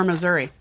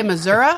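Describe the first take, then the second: First: "Missouri" ending in ee, muh-ZUR-ee; standard pronunciation. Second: "Missouri" ending in uh, muh-ZUR-uh; old-fashioned pronunciation. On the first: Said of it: "or Missouri". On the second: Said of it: "Do you say Missouri or". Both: Shown as a demonstration.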